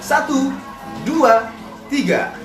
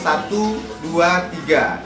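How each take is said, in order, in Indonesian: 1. Hitungan diucapkan dengan suara yang ekspresif dan lantang. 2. Hitungan diucapkan dengan biasa saja, dengan sedikit ekspresi suara. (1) "Kemudian saya tambahkan suaranya dengan teknik suara" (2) "Itu verbal saja"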